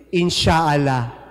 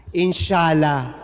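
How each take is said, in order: First: Slow, drawn-out inshallah with long aa; Arabic inshallah. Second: Slow Inshallah said once more, shorter aa; Arabic inshallah repeated. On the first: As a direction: stretch the middle of Inshallah. (mabagal na inshallah, mahaba ang aa) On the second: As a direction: repeat Inshallah slowly and calmly. (mabagal na inshallah ulit) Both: Shown as a demonstration.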